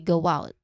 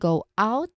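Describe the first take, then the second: First: A small W glide joins the two words. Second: The two words are said separately and clearly. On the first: "which is the connected speech way" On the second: "use in a separate uh, way or in a separate clear way"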